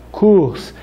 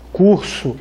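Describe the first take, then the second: First: "kurs" said as Hebrew kurs, short u, no final vowel; Hebrew pronunciation. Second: Said in the usual way. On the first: Shown as a demonstration. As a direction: clip "kurs" to one syllable, no o at the end. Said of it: "kurs shel ivrit". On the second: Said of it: "Eu tenho kurs".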